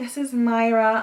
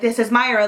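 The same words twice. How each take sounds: First: The voice sounds calm and relaxed. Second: The voice sounds angry and forceful. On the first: The speaker calls it right. "really calm" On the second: The speaker calls it wrong. "I made it obvious I was very angry"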